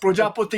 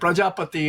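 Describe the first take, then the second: First: It is said with a Bengali pronunciation. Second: It is said with a Sanskrit pronunciation. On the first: "Bengali pronunciation of Prajapati is Bengali" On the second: "Prajapati is uh, Sanskrit or Hindi"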